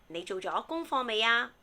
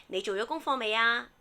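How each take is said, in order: The two takes are said the same way.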